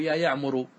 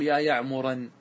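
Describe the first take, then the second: First: "يعمر" ending in -u, built on the damma; correct case ending. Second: "يعمرا" ending in -an, accusative with tanween; wrong case ending. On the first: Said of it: "بل يجب أن تقول". (نطق "يعمر" مبنيا على الضم) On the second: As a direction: say "يا يعمرا" with the final -an clearly heard. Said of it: "لا يجوز أن تقول". (نطق "يعمرا" بتنوين النصب) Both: Shown as a demonstration.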